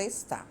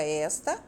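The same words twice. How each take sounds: First: "está" stressed on final TÁ; "está" as es-TÁ, weak first syllable; stress on last syllable. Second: "esta" stressed on ES, open e; "esta" as ES-ta, weak final syllable; stress on first syllable. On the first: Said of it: "a sílaba forte dela é a última". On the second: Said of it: "a sílaba mais forte é o es". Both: Shown as a demonstration.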